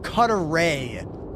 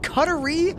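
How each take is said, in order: First: The word ends with a clear 'ray' sound. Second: The word ends with a short 'ree' sound. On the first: "Do you say the word ray?" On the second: "Is it cuttery"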